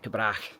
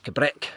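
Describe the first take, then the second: First: The name ends like 'Cabrach'. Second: The name ends like 'Cabrick'. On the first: This is how outsiders would guess it. The speaker calls it wrong. "it's not the Cabrach" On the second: This is how the locals say it. The speaker calls it right. "it's Cabrick"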